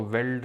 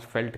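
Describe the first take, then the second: First: "वेल्ट" said as written, with a v; spelling pronunciation. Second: "फेल्ट" with an f at the start; correct pronunciation. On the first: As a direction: say "वेल्ट" starting on a v sound. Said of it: "लिखते हैं". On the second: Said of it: "pronounce फेल्ट करते हैं". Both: Shown as a demonstration.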